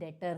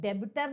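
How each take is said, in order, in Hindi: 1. बीच में b की ध्वनि साइलेंट है। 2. बीच में b की ध्वनि बोली जाती है। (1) "डेटर होता है" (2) "डेबिटर नहीं होता है"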